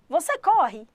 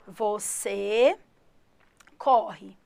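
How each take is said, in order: First: It is said with question intonation. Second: It is said with plain statement intonation. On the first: It asks whether you run. "Põe a entonação" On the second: It states that you run. "Em português eu falo assim"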